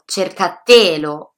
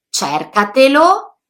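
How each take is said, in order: First: The stress falls on the third syllable. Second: The stress falls on the second syllable. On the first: The speaker calls it wrong. "sono sbagliati" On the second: The speaker calls it right. "La pronuncia corretta è"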